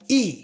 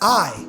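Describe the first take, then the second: First: The letter is said the Spanish way. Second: The letter is said the English way. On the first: The speaker calls it right. "for us it's I" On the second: The speaker calls it wrong. "So it's not I"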